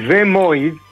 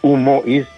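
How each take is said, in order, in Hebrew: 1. למילה יש הגייה מדוברת, יומיומית. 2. למילה יש הגייה רשמית, תקנית. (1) "תגיד ומואיז. ככה דיברנו" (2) "אל תגיד ומואיז"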